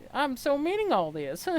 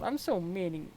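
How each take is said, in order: First: Meaning pushed higher and louder; stress on meaning. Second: Said in the usual way. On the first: Acted. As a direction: lean hard into meaning. Repeats the line more emphatically.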